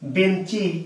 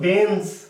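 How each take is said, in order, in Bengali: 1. শেষে একটি অতিরিক্ত i স্বরধ্বনি যোগ হয়। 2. শব্দটি ব্যঞ্জনবর্ণে শেষ হয়। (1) "কিন্তু আমরা কি বলছি বেঞ্চি" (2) "শব্দটি হলো বেঞ্চ"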